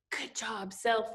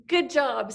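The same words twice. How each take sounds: First: Good job, self said much softer as a quiet example; quiet demo. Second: Said in the usual way. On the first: Shown as a demonstration. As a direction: softly model the words for the kids. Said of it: "I want you to say".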